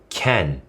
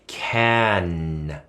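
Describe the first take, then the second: First: The final nasal sound is weak and quickly dropped. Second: The final nasal sound is fully held and resonant. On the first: The speaker calls it wrong. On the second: The speaker calls it right.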